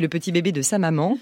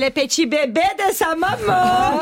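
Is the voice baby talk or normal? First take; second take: normal; baby talk. First: It is said in an ordinary speaking voice. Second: It is said in a put-on baby-talk voice. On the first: "ça serait de lui parler normalement" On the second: "il me vient un accent très problématique"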